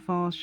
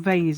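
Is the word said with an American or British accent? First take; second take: British; American. First: The word is said with a British accent. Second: The word is said with an American accent.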